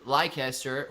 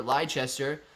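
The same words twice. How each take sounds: First: Leicester misread as "lie-kester"; alternative pronunciation of Leicester. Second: Leicester misread as "lie-chester"; alternative pronunciation of Leicester. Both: Shown as a demonstration. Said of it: "they're from Leicester or Leicester".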